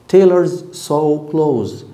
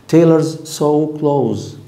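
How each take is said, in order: No difference in how they are said.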